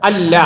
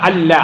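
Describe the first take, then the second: The two takes are said the same way.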